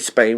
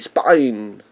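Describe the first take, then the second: First: The vowel is a standard 'ay' sound. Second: The vowel is a drawled 'eye' sound. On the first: "We don't say Spain" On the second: "That's a redneck version of saying Spain"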